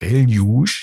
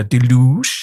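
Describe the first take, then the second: First: "Deluge" said as DEL-yoo; "Deluge" with short open e, final g dropped; pronunciation try. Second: "Deluge" said as deh-LOO; "Deluge" with schwa first, stress on LOO; alternative pronunciation. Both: Shown as a demonstration. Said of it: "das ist die richtige Aussprache".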